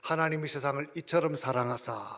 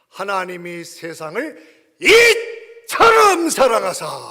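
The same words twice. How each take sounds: First: It is read in a plain, flat way. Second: It is read with strong, heartfelt emphasis.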